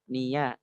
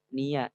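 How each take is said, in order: The two takes are said the same way.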